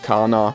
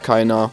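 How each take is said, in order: First: It is said in an Austrian dialect pronunciation. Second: It is said in standard German pronunciation.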